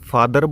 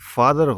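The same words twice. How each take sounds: First: The final r sound is pronounced. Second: The final r sound is silent. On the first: The speaker calls it wrong. "कुछ students फादर बोलेंगे, इसको वो गलत है" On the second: The speaker calls it right. "जो बाद में आर आता है ये नहीं बोला जाता"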